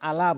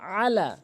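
First: The opening vowel has no throaty ain sound. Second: The opening vowel has a throaty ain sound. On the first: The speaker calls it wrong. "অনেকেই আলা বলে, অর্থ চেঞ্জ হয়ে যাবে" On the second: The speaker calls it right. "আলা বলতে হবে হলকের মাঝখান থেকে"

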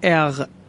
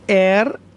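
First: The final sound is a rasping sound from the throat. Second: The final sound is an r made with the tongue. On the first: "به صورت ر یا غ میتونید تلفظ کنید" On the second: "به صورت ر یا غ میتونید تلفظ کنید، ترجیحاً ر تلفظ کنید"

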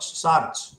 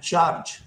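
First: The word begins with an s sound. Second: The word begins with a ch sound.

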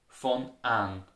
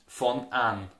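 No difference in how they are said.

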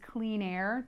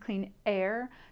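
First: The words run together without a glottal stop. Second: A glottal stop comes before "air".

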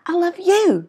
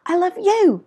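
First: The stress is on the word you. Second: The same.

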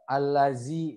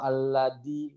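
First: The middle consonant is a buzzing z. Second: The middle consonant is a hard d. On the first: "nyasai ke huruf zai" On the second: "atau aladi"

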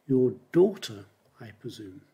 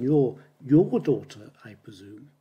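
First: The stress falls on the word daughter. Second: The stress falls on the word your. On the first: It is your daughter, not your sister or mother. "So you put the stress on daughter" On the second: It is your daughter, not someone else's. "So you have to put the stress on your daughter"

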